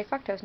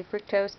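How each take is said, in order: First: Fructose said the British way, FROO-ktose with a long oo; British pronunciation. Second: Fructose said the American way, FRUCK-tose with a short u; American pronunciation. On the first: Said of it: "always say fructose now". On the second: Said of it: "we say fructose". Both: Shown as a demonstration.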